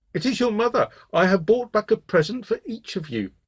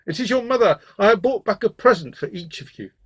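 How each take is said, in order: First: High, put-on motherly voice; soft-voiced wolf. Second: Raised, loud gruff wolf voice. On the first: Wolf poses as mother to trick the goats, soft and high. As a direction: coax them in a falsely gentle high voice. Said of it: "called in his new soft voice". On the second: Wolf tells the little goats he is their mother, gruffly. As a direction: coax them as a gruff-voiced impostor. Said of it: "heard that the voice was gruff". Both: A narrator's reading.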